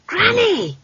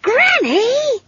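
First: Put-on high-pitched girl calling out; sudden high child's call; alarmed child's cry. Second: Put-on very high, scolding girl's cry; high-pitched exasperated call; exasperated child. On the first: Child calls out as broomstick dives. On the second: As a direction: berate a wayward elder in a child's voice. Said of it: "in the exasperated and remarkably adult voice". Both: A narrator's reading.

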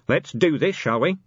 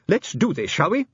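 First: Commander's voice, only moderately raised; commander relaying orders. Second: High-pitched little official, rising on "shall we"; resolute inspector. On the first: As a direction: pass the inspector's proposal on to the sergeant. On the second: Nervous inspector proposes the attack. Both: Acted.

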